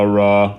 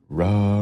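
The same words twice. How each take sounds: First: The voice is tight, brighter and louder. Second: The voice is breathy with loose vocal fold closure. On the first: "a higher closed quotient" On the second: "went from a lower closed quotient with the breathy sound"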